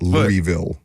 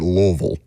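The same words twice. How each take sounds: First: The word is said clearly. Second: The word is mumbled and mushy. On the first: The speaker calls it right. "not Louisville" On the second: The speaker calls it wrong. "the way that you say Louisville"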